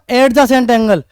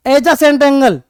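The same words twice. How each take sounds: First: Adjacent said as a mocked wrong "ad-jacent"; the mistaken adjacent, slowly; wrong pronunciation. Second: Adjacent said "ed-jacent", slow; correct pronunciation. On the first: (गलत उच्चारण, धीरे) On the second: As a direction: adjacent angle with an "e" at the start. (सही उच्चारण) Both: Shown as a demonstration. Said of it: "not adjacent angle".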